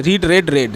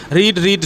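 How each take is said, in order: First: "রিড" with ee, then "রেড, রেড" with a short e like red; verb forms read aloud. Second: "রিড" said with a long ee vowel, like reed; read as present tense. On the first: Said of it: "V টুয়ে রেড উচ্চারণ হবে". ("রিড, রেড, রেড" তিনটি রূপ, শেষ দুটি রেড উচ্চারণে) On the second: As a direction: say "রিড" as reed, the first form of the verb. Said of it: "V ওয়ানে রিড উচ্চারণ হবে". ("রিড" উচ্চারণ রিড, দীর্ঘ ই-ধ্বনিতে) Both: Shown as a demonstration.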